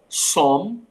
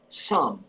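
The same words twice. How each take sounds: First: The vowel sounds like an O. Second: The vowel sounds like an A. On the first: The speaker calls it wrong. "a pronúncia não é com O" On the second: The speaker calls it right. "é com A"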